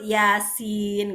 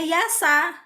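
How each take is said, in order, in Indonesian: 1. Kata itu berakhir dengan bunyi n yang tertutup. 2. Kata itu berakhir dengan vokal a yang terbuka. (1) "yang betul yasin" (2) "bacanya yasa"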